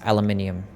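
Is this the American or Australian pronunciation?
Australian. It is said the Australian way, five syllables. "We say it how we spell it"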